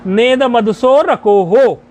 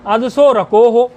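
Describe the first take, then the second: First: "नेद मदसो रको हो" slow, fused as verse with drawn-out vowels; छंदवत उच्चारण. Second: "अदसो रको हो" at everyday pace, starting afresh on the a; पदवत उच्चारण. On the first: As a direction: run "नेद" into "मदसो" and lengthen "रको हो" in metre. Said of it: "छंद की दृष्टि से इसका उच्चारण". (छंद की लय में, जोड़कर और खींचकर) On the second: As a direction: say "अदसो रको हो" as separate words, no verse lengthening. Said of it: "ना इदम को तोड़ लोगे". (शब्द तोड़कर, सामान्य गति में) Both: Shown as a demonstration.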